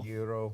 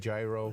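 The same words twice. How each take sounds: First: The word begins with a Y sound. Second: The word begins with a hard G sound. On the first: "Why put the G there if you're only going to pronounce the Y?" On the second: "Americans might say gyro"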